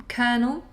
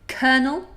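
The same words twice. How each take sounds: The two takes are said the same way.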